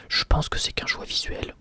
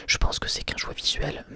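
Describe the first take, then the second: No difference in how they are said.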